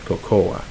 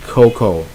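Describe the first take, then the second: First: Cocoa said co-co-a, softer, with the extra A; dropped tone on the wrong cocoa; mild wrong three-syllable cocoa. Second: Cocoa said koh-koh, no final A; correct cocoa. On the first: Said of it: "not cocoa". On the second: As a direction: stress the right two-syllable cocoa. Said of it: "cocoa, not cocoa". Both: Shown as a demonstration.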